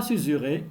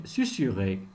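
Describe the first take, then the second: First: Susurrer with a buzzing Z for the second S; wrong pronunciation demo. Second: Susurrer with both S sounds hissed as s; correct pronunciation demo. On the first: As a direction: say susurrer as "suzurrer", voiced z mid-word. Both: Shown as a demonstration. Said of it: "On ne dit pas susurrer".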